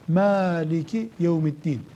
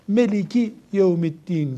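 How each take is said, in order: First: The first vowel is an open 'a' sound. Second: The first vowel is a closer 'e' sound. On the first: "Bu bir lehçesi" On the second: "Onlarda a diye ses, ağız açmak yok"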